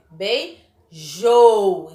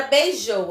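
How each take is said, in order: First: "beijou" very slowly split, loud long JOU; stress on JOU. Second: Said in the usual way. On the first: Shown as a demonstration. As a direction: say "beijou" as bei... JOOOU. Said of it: "a última sílaba dela é a mais forte". ("beijou" separado, com o JOU forte e longo) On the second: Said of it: "ela for a mais forte".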